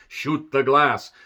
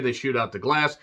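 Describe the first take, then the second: First: Put-on slow, deliberate accented command; villain's order. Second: Said in the usual way. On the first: Hans orders his men to fire, slow accented command. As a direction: drag out each word like a cold villain.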